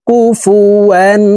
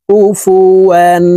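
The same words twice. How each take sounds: No difference in how they are said.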